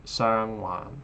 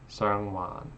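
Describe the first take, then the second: The two takes are said the same way.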